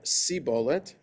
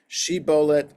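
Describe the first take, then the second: First: The word begins with an 's' sound. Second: The word begins with a 'sh' sound.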